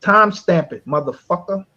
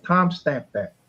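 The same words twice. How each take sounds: First: "Time stamp it" barked higher and louder; louder demand. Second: Said in the usual way. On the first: Real, not acted. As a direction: push the demand harder, almost shouting.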